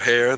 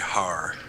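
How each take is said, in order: First: The word is said with a plain 'air' vowel. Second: The word is said with an 'ar' vowel. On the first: "instead of hair" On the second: "they say har"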